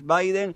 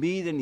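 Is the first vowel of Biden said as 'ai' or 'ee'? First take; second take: ai; ee. First: The first vowel is said as 'ai'. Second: The first vowel is said as 'ee'. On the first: This is how the name is said in English. The speaker calls it right. "pero es Biden" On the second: This is how people read the name from its spelling. The speaker calls it wrong. "para la gente que no sabe o lo lee en los medios de comunicación"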